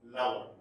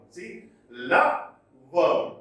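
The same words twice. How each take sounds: First: Said in the usual way. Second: "lover" drawn out very slowly, first syllable stressed; LO-ver, lean hard on the first half; "lover" split slowly into a stressed and an unstressed syllable. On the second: Shown as a demonstration. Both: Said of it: "lover is split into two".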